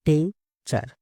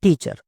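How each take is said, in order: First: "Teacher" split into tea, cher with a pause; syllable by syllable. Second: Said in the usual way. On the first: Shown as a demonstration. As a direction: break "Teacher" into two separate syllables. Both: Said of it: "किसी word को धीरे-धीरे बोलना है".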